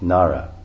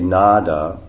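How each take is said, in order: First: The middle consonant is a rolled r sound. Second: The middle consonant is a plain d sound. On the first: The speaker calls it right. "it's actually the correct pronunciation, because it's a D with a dot under it, which means rolled R" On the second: The speaker calls it wrong. "we say Nada"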